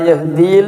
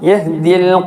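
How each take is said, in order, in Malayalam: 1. രണ്ടാമത്തെ സ്വരം നീട്ടി ഉച്ചരിക്കുന്നു. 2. രണ്ടാമത്തെ സ്വരം ഹ്രസ്വമായി തന്നെ ഉച്ചരിക്കുന്നു. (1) "ലാ യഹ്ദീൽ എന്ന് പറയില്ല" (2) "നീട്ടുകയില്ല"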